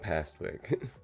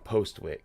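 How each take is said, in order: First: The first vowel is an 'a' sound. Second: The first vowel is an 'o' sound. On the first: The speaker calls it wrong. "I kept saying Pastwick" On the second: The speaker calls it right. "I always say this wrong"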